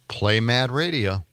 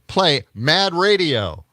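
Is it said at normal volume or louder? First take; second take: normal; louder. First: It is said at normal volume. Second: It is said more loudly.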